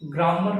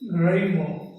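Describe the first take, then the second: First: The first vowel is a long open 'ah' sound. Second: The first vowel is a short 'eh' sound. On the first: The speaker calls it wrong. "ग्रामर का pronunciation ग्रामर नहीं है" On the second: The speaker calls it right. "This is ग्रेमर"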